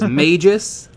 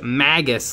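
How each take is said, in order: First: The first vowel is a long 'a', as in mage. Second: The first vowel is a short 'a', as in maggot. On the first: The speaker calls it wrong. "I thought it was Magus, like mage" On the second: The speaker calls it right. "it's Magus, like maggot"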